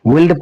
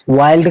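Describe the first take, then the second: First: "विल्ड" with a short i; wrong pronunciation. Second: "वाइल्ड" with an "eye" vowel; correct pronunciation. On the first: Teacher warning it is wrong, "विल्ड" with short i. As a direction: say "विल्ड" with the vowel of "will". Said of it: "पढ़ेंगे तो गलत होगा". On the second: Teacher giving the right reading, "वाइल्ड" with "eye". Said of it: "वाइल्ड की तरह पढ़ेंगे". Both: Shown as a demonstration.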